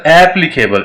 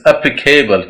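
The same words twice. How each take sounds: First: "applicable" with a full AP at the start; wrong pronunciation. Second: "applicable" with a schwa start, weight on PLI; stress on P. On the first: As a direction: open "applicable" on a strong sheep-sound A. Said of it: "it's not applicable". ("applicable" का गलत उच्चारण, शुरू में पूरा ऐ) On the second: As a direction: weaken the first vowel of "applicable", lean on the p. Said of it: "पी पे stress है". ("applicable" में पी पर ज़ोर, शुरू में हल्का अ) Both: Shown as a demonstration.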